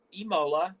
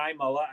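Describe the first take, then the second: First: "Imola" opening on a long ee sound. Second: "Imola" opening on an eye sound. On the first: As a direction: say "Imola" as ee-MOH-la. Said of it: "I think it's Imola". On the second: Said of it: "or Imola, I think it's Imola". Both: Shown as a demonstration.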